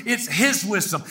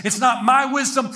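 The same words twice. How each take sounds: First: "his" stressed, then falling. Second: "my" pushed up in a raised line; stress on MY. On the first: Preacher crediting Christ's wisdom, "his" stressed. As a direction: answer firmly, leaning on "his". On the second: Preacher denying own wisdom, "my" stressed high. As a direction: lean on "my" to set up contrast. Contrasts my with his. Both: Real, not acted.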